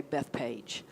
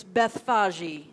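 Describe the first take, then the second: First: Bethpage as Beth-PAGE, ending like the English word page; Bethpage, two syllables, soft and plain-English; local pronunciation. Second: Bethphage as beth-FAH-zhee; first-century pronunciation. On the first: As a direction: say Bethpage the local way, low and slow, rhyming with cage. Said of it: "we'd say Bethpage". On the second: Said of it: "in the first century, it's Bethphage". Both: Shown as a demonstration.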